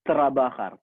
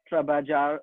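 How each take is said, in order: First: The last syllable starts with an h sound. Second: The last syllable starts with an English j sound. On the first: The speaker calls it right. "ജെ A R, ഹാർ" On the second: The speaker calls it wrong. "English ഇത് വായിക്കുകയാണെങ്കിൽ"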